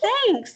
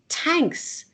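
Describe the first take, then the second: First: The word begins with a th sound. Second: The word begins with a plain t sound. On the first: This is how the museum cashier said it. "but he said thanks" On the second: This is how restaurant servers in Ireland say it. "I've heard servers in restaurants say tanks"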